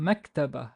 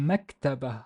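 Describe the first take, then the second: The two takes are said the same way.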